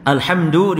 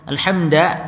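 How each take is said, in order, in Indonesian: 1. Kata itu berakhir dengan vokal 'u'. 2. Kata itu berakhir dengan vokal 'a'.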